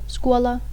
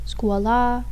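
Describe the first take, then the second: First: The final vowel is short. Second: The final vowel is long. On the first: It is the basic form of the word. "instead of" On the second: It is the locative form of the word. "the A is elongated"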